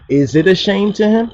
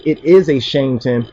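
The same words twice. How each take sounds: First: Higher question, rising on "him?". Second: Statement tune, no rise on "It is a shame to him.". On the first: Preacher shows the verse asked as a question. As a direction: lift "Is it a shame to him?" into a question. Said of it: "if it's a question, it should be". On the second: Preacher shows how the translation reads as a statement. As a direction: say "It is a shame to him." as a flat claim. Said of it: "Instead of, if it's a question". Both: Shown as a demonstration.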